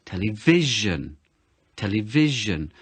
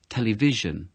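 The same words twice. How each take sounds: First: Television with the first syllable hammed up, slowly; Television, tel- punched hard and drawn out; exaggerated stress. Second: Said in the usual way. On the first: Shown as a demonstration. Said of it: "So I really exaggerate it". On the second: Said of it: "yeah, I might say it".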